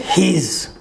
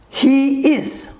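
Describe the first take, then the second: First: It is contracted into one short syllable. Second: It is said as two full separate words.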